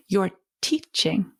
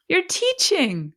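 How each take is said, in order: First: Said in the usual way. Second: Higher, slower, beaming; delighted emphasis. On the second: Shown as a demonstration. Coach delights as she tells parents, higher and slower. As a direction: savour it as praise.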